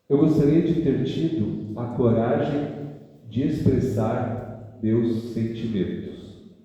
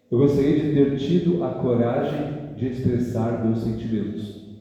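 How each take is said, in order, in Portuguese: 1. A frase é lida em ritmo mais lento. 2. A frase é lida em ritmo mais rápido.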